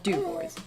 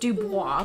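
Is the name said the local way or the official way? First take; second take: local; official. First: The name is said the local way. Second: The name is said the official way. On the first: This is how people in the area say it. The speaker calls it wrong. "people around here are dumb, and so it's called Dubois" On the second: This is how the name is properly pronounced. The speaker calls it right. "It is pronounced Dubois"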